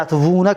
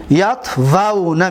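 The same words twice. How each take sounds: First: یتوونا said quickly as yatvunā, with a u sound; یتوونا rattled off wrongly as yatvunā; wrong form. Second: یتوونا said slowly as yatvanā, with a clear a; یتوونا spoken deliberately as yatvanā; correct form. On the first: (یتوونا را تند و غلط، «یَتوُونا» بگو) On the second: (یتوونا را آهسته و درست «یَتوَنا» بگو) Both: Shown as a demonstration. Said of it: "غلط است".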